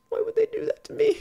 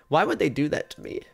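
First: Much higher, whiny mock voice; squeaky whine. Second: Said in the usual way. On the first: Streamer whining about lost item.

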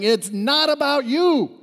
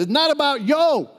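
First: Said in the usual way. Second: "yo" with an open o, high and loud; pastor's pronunciation. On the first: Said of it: "you hear your pastor all the time sharing". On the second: Retold or imitated. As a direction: imitate the pastor, landing emphatically on "yo". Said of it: "he says this".

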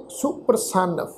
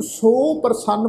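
First: ਸੁਪ੍ਰਸੰਨ with a short u, su-pra-sann; ਸੁਪ੍ਰਸੰਨ said with the short aunkar vowel; correct pronunciation. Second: ਸੋ ਪ੍ਰਸੰਨ with a long o, split apart; the mistaken long-o ਸੋ ਪ੍ਰਸੰਨ; wrong pronunciation. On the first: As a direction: keep the u in ਸੁਪ੍ਰਸੰਨ short and light. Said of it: "ਪਾਠ ਉਚਾਰਨ ਕਰਾਂਗੇ ਸੁਪ੍ਰਸੰਨ". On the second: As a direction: stretch the first vowel to o in ਸੋ ਪ੍ਰਸੰਨ. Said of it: "ਪਾਠ ਉਚਾਰਨ ਨਹੀਂ ਕਰਨਾ". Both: Shown as a demonstration.

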